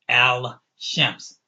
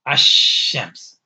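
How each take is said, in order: First: The L sound is clearly pronounced. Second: The L sound is dropped into the next consonant. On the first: The speaker calls it wrong. "you're not going to say al shams" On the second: The speaker calls it right. "You're going to say ashams"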